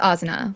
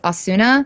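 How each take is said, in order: First: The middle 'u' vowel is almost silent. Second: The middle 'u' vowel is fully pronounced. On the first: This is how the name is supposed to be said. The speaker calls it right. "Like the U is almost silent" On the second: This is how English speakers usually say the name. The speaker calls it wrong. "in English everyone says Asuna"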